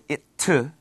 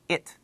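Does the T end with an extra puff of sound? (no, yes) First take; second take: yes; no. First: The T is released with an extra vowel sound. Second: The T is very soft with no extra sound. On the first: The speaker calls it wrong. "You don't really say it to" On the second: The speaker calls it right. "just it, it. The T sound is very soft"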